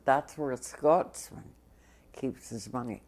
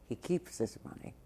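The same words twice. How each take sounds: First: Said in the usual way. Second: Quiet aside. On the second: Real, not acted. Aside teasing Ed.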